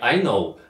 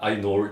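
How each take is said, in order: First: The word ends without any r sound. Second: An r sound is added at the end. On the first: "не I know" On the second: "Она добавляет, например, к каким-нибудь словам там R в конце"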